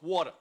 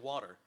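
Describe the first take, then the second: First: It is said in a Long Island accent. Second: It is said in a neutral, trained accent. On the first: This is how a local parent insists it is said. "It's like no, it's water" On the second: This is how the trained speaker says it. "my vocal training kind of like you know, my mom makes fun of me because I say water"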